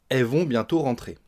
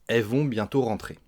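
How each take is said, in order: The two takes are said the same way.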